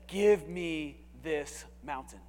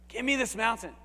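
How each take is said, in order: First: Slow, drawn-out, every word weighted; slow King James reading. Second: Said in the usual way. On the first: Shown as a demonstration. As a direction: read it slowly like old scripture. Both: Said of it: "I love how the King James says".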